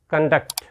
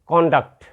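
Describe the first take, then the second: First: The stress is on the second syllable. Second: The stress is on the first syllable. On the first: It is used as a verb. "when we use it as a verb, we must pronounce it conduct" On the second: It is used as a noun. "When we use it as a noun, you will pronounce conduct"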